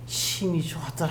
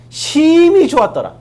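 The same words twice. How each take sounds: First: Very soft, lower-pitched delivery; hushed quotation. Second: 심히 drawn out loud and high; stress on 심히. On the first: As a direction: let the verse sink into a hush. 같은 구절을 낮춰 되풀이. (낮고 아주 조용하게 읊조리듯) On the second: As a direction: stretch 심히 slowly and forcefully. 강조해 들려주는 성경 구절. ('심히'를 높고 크게 길게 끌며 강조) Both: Acted.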